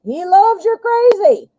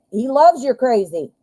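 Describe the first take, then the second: First: "He loves you're crazy" repeated much higher and louder; high incredulous repeat. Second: Said in the usual way. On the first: Shown as a demonstration. Reader repeating the viewer's line high and incredulous. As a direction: echo it back high, in disbelief.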